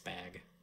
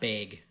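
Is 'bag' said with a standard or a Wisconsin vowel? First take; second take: standard; Wisconsin. First: The word is said with a standard vowel. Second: The word is said with a Wisconsin vowel. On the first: The speaker calls it right. "the proper way to say the word bag" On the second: The speaker calls it wrong. "it's not bag"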